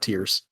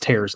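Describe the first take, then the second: First: The word rhymes with 'cheers', like crying. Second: The word rhymes with 'chairs', like ripping. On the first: This is the title's real name. The speaker calls it right. "I know it's called Tears of the Kingdom" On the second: This is how the title wrongly reads in the head. The speaker calls it wrong. "my brain nonstop wants to say tears"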